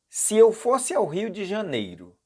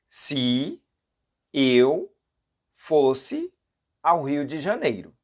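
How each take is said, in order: First: It is said at normal speed. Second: It is said slowly.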